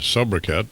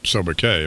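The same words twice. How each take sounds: First: It is said with an anglicized pronunciation. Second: It is said with a French-style pronunciation. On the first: The speaker calls it wrong. "Walter mispronounced uh" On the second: The speaker calls it right.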